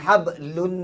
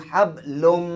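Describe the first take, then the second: First: The final sound is a clear n sound. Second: The final sound merges into an m sound. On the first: The speaker calls it wrong. "bukan hablun" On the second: The speaker calls it right. "Dia hablum"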